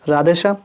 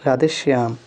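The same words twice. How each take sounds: First: राधेश्याम without its y, "raadhe-shaam"; incorrect form. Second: राधेश्याम with a clear y, "raadhe-shyaam"; correct form. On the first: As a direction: drop the y glide in राधेश्याम. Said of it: "इधर हमारा अशुद्ध". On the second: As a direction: sound the y glide in राधेश्याम. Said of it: "इधर शुद्ध रूप है". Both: Shown as a demonstration.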